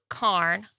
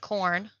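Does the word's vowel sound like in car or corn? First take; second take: car; corn. First: The vowel sounds like the one in car. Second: The vowel sounds like the one in corn. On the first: The speaker calls it right. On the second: The speaker calls it wrong. "not corn"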